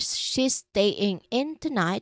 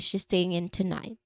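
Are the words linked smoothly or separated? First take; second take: separated; linked. First: The words are said separately, with breaks between them. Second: The words flow together, staying sliding into in. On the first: The speaker calls it wrong. "Instead of saying" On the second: The speaker calls it right. "we say"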